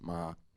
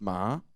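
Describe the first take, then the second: First: The pitch stays level and low. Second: The pitch rises through the syllable. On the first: "the low tone is marked with a with a grave accent" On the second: "it would be a raising tone"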